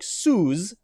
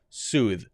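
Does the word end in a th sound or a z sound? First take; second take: z sound; th sound. First: It ends with a z sound. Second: It ends with a voiced th sound. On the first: The speaker calls it wrong. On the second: The speaker calls it right.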